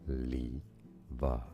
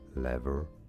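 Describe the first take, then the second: First: It is said with a British accent. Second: It is said with an American accent.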